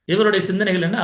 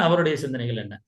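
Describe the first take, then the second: First: இவருடைய higher and louder, rising at the end; stress on இவருடைய. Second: அவருடைய lower, falling at the end; falling contrast. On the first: Teacher setting this person's thoughts against another's, stressing இவருடைய. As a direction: lean on இவருடைய as a question. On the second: Teacher finishing the comparison, அவருடைய low and falling. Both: Shown as a demonstration.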